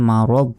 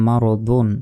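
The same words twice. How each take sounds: First: মারদ closed on a vowelless final d; stopping with sukun. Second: মা র দুন with the final "dun" sounded; continuing form, un ending. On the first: Teacher shows how to stop, মারদ ending on a bare d. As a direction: cut মারদ off on the last consonant. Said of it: "শেষ অক্ষরে সাকিন দিতে হবে". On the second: Teacher spells it for reading on, মা র দুন ending in "dun". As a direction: finish মা র দুন on a voiced "un". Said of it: "আর যদি না থামি". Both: Shown as a demonstration.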